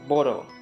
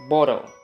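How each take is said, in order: First: The middle consonant is a soft D-like flap. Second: The middle consonant is a soft D-like flap.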